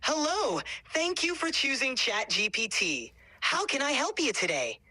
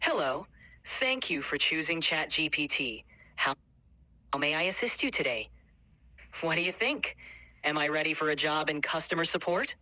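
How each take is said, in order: First: Much higher, bright cheery service greeting; cheery customer service voice. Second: Customer service voice. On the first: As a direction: sing it out like a happy shop clerk. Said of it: "try making it a little bit more, like, cheery". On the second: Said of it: "do your best customer service voice right now". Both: Shown as a demonstration.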